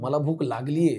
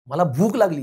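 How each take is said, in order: First: The stress falls on the last word. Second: The stress falls on the middle word. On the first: The hunger has actually set in. "ह्याच्यात लागलीला महत्त्व आहे" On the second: What I feel is hunger. "ह्याच्यात महत्त्व भुकेला आहे"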